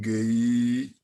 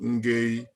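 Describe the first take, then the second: First: The voice rises at the end. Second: The voice does not rise at the end. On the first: The speaker calls it right. "So your voice goes up" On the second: The speaker calls it wrong. "So it's not Ngay"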